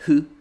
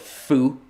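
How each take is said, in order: First: The consonant is a soft breathy h-like sound. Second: The consonant is made with lip touching teeth. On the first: The speaker calls it right. "You go like hu" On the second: The speaker calls it wrong. "you never touch your lip to your teeth, so you never say like fu"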